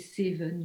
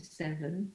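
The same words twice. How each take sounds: First: The first vowel is a close e. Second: The first vowel is an open e. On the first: The speaker calls it wrong. "You don't say seven" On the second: The speaker calls it right. "you say seven. So it should be much more open"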